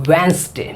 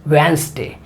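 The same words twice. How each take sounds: Both takes have the same delivery.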